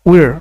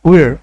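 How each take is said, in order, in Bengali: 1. এটি স্পষ্ট একটি 'র' ধ্বনি দিয়ে শেষ হয়। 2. এটি স্পষ্ট একটি 'র' ধ্বনি দিয়ে শেষ হয়।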